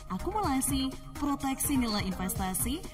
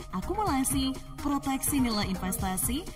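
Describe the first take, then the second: Both takes have the same delivery.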